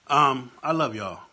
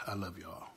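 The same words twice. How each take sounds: First: Slow and louder, voice swelling with feeling; "I love y'all" said slowly and loudly, pushing it out; emotional outburst. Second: Much softer and lower, almost to himself; emotional, softer. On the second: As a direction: let "I love y'all" sink to a soft, low murmur. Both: Real, not acted. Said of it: "I'm getting worked up".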